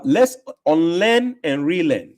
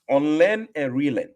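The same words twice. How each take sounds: First: Slow, drawn-out, deliberate motto; slow emphatic slogan. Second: Said in the usual way. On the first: Real, not acted. Host answering a viewer with his slow, deliberate motto. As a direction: lay the motto down slowly, word by word.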